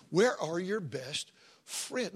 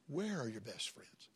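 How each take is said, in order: First: Very slow, every word weighed; slow emphatic question. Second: Sudden near-hush, drawn slightly out; hushed question. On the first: Preacher presses the congregation slowly on their friends. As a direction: drag it out so it sinks in. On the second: Preacher asks his congregation in a hushed voice. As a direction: pull them in with a low hushed ask. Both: Acted.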